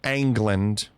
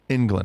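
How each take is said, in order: First: The first vowel is an open 'a' sound. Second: The first vowel is the usual 'eng' sound. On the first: The speaker calls it wrong. "I don't say Ang- Angland" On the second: The speaker calls it right. "I say England"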